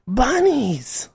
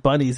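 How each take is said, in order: First: BUNNIES in a very high, stretched-out wail; mock protest scream. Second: Said in the usual way. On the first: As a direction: imitate a weird-sounding protester squealing the word. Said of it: "they'd go". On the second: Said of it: "when they said bunnies".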